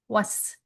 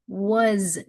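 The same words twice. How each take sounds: First: The word ends with a hissing s sound. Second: The word ends with a buzzing z sound. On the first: The speaker calls it wrong. "So don't do was, was, mm-mm" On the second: The speaker calls it right. "it's really a z sound"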